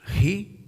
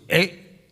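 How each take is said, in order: First: The word starts with an audible h sound. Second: The word starts directly with the vowel. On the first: The speaker calls it right. "la H suena como la J en estos idiomas" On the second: The speaker calls it wrong. "No decimos e"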